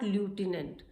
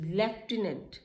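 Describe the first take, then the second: First: The first syllable has no f sound. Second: The first syllable has an f sound. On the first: The speaker calls it wrong. "Not ल्यूटिनेंट" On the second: The speaker calls it right. "यहाँ तो कहीं एफ लिखा नहीं है, but this word is pronounced as लेफ्टिनेंट"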